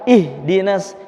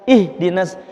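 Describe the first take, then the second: Both takes have the same delivery.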